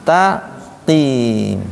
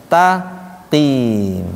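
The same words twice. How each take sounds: Both takes have the same delivery.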